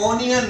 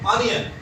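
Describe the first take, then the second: First: The first vowel sounds like 'o'. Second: The first vowel sounds like 'u'. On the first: The speaker calls it wrong. "ओनियन नहीं है" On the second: The speaker calls it right. "बल्कि"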